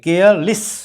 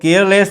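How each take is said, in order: First: The ending is a reduced 'liss'. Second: The ending is a full 'less'. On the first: The speaker calls it right. "लेस में लिस की ध्वनि निकलनी चाहिए" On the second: The speaker calls it wrong. "केयरलेस नहीं बोलेंगे"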